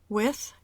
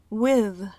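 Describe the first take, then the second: First: The th is voiceless, without vocal cord buzz. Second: The th is voiced, with vocal cord buzz. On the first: "con la th sorda" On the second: "con la th sonora"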